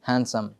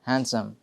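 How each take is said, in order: The two takes are said the same way.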